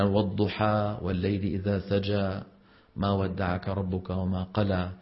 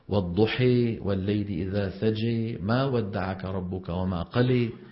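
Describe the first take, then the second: First: The final long vowels are open a sounds. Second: The final long vowels fall between a and e. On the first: "الفتح" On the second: "وبين اللفظين"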